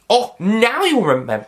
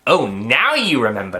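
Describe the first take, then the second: First: It is said in a Scottish accent. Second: It is said in the speaker's usual accent.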